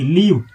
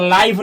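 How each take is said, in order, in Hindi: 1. स्वर एक छोटा 'i' ध्वनि है। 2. स्वर एक लंबा 'ai' ध्वनि है। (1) "L I V E लिव" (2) "इसको लाइव नहीं पढ़ा जाता है"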